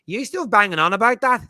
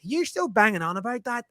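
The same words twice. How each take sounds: First: Put-on high, loud Northern Irish child voice; Northern Irish accent. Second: Put-on higher Northern Irish child voice, repeated; Northern Irish accent. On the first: Son teasing his dad, in a high Northern Irish kid accent. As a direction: tease like a seven-year-old Northern Irish lad. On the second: Retelling his son's jab, in a lighter Northern Irish accent. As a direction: lightly redo the boy's Northern Irish tease. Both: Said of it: "In his thick Northern Irish accent".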